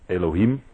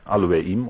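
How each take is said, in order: First: The word begins with an E sound. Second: The word begins with an A sound. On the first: The speaker calls it wrong. "het wordt vaak uitgesproken als eeuw of Elohim" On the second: The speaker calls it right. "maar eigenlijk moet je zeggen Aloeim"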